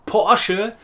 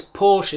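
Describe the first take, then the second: First: "Porsche" in two syllables, ending on a short e. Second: "Porsche" as one syllable, with silent final e. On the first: Teacher giving the German brand name, two syllables. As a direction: sound the final e of "Porsche". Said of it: "it also has two syllables". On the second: Teacher showing the old English habit, one-syllable Porsche. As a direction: say "Porsche" English style, rhyming with torch. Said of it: "known as Porsche in the English". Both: Shown as a demonstration.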